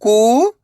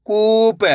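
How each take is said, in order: First: कू, long pause, प; कूप split slowly, rising first syllable. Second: कूप joined, long ऊ; blended word. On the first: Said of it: "एक अक्षर का उच्चारण करना है". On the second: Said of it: "तो मिलके बन जाएगा". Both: Shown as a demonstration.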